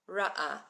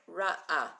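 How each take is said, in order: No difference in how they are said.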